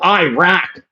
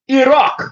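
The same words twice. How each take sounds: First: It is said with an American accent. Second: It is said with an Arabic accent. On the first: The speaker calls it wrong. "redneck type of dudes ... people pronounce" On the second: The speaker calls it right.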